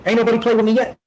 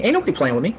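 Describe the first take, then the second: First: Higher, punchier second take of "Ain't nobody playing with me yet"; emphatic repeat. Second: Said in the usual way. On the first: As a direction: lift the repeat onto "playing" and say it harder. Repeats the line, the second time stronger.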